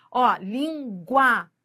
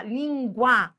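First: "língua" drawn out slowly, sound by sound; slow demo. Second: Said in the usual way. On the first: Shown as a demonstration. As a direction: stretch "língua" so the glide is heard. ("língua" bem devagar, mostrando a semivogal) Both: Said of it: "Você viu?".

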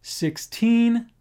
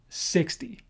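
First: Put-on "Sixteen" with a long, weighted "teen"; stress on second syllable. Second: "sixty" weighted on "six", quick soft "ty"; stress on first syllable. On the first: Teacher repeats the contrast for learners, "Sixteen" stressed on TEEN. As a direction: lean hard on "teen" in "Sixteen". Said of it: "second syllable". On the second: Teacher repeats the contrast for learners, "sixty" stressed on SIX. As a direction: stress "six", drop away on "ty". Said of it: "first syllable". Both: Shown as a demonstration.

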